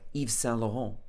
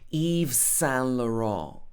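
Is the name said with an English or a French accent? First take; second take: French; English. First: It is said with a French-style accent. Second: It is said with an English-style accent. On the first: This is closer to the original pronunciation. "in French it might be something like" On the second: This is how English speakers usually adapt it. "we might say Yves Saint Laurent"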